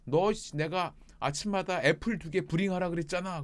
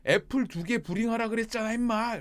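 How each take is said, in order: First: Raised, higher mock scolding; exasperated boss, moderately raised voice; imitated scolding. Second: Loud, high mock telling-off; hammed-up angry boss, pitched high; imitated angry scolding. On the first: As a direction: imitate a boss telling off a worker. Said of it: "막 세게 부릴 때 막 혼내킬 때도". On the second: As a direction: play the boss losing patience with a worker. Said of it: "화내면서 하면".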